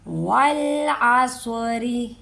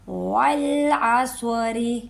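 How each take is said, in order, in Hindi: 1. यह शब्द हल्के र और छोटी इ के साथ खत्म होता है। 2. यह शब्द हल्के र और छोटी इ के साथ खत्म होता है।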